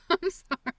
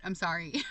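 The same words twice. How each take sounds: First: Sorry said through a laugh; laughing apology. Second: Said in the usual way. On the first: Real, not acted. Laughing sorry to the viewers after sounding like she was bragging. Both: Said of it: "that sounds like I'm bragging".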